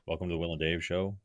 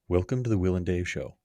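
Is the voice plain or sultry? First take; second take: plain; sultry. First: It is said in his plain voice. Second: It is said in a sultry voice.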